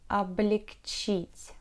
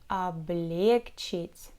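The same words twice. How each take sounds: First: The stress is not on the second syllable. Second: The stress is on the second syllable. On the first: The speaker calls it right. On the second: The speaker calls it wrong.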